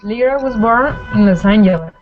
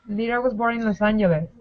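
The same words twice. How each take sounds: First: It is said at a normal, slower pace. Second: It is said a little faster.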